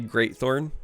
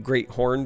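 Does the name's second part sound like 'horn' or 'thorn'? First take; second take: thorn; horn. First: The second part is said as 'thorn'. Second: The second part is said as 'horn'. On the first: The name is read as a thorn. The speaker calls it wrong. "glance at this and say Greatthorn" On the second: The name refers to the moose's great horns. The speaker calls it right. "is probably Great Horn, because this is a moose with some pretty great horns"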